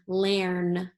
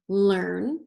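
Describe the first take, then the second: First: The vowel sounds like the 'air' in 'hair'. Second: The vowel sounds like the 'er' in 'her'. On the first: The speaker calls it wrong. "Let's try it with air. ... that doesn't sound right either" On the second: The speaker calls it right. "let's try it with er ... so that sounds right"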